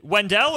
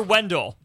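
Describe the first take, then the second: First: "Wendell" said as wen-DELL, full vowel at the end; second syllable stressed. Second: "Wendell" said as WEN-dl, swallowed last vowel; first syllable stressed. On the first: Host checks caller's name, "Wendell" as wen-DELL. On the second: Host checks caller's name, "Wendell" as WEN-dl. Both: Shown as a demonstration. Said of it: "Is it Wendell or Wendell?".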